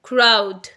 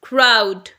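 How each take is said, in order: No difference in how they are said.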